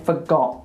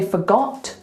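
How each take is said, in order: First: The final T is dropped. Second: The final T is clearly pronounced. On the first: "we'd say forgot" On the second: "We wouldn't say forgot"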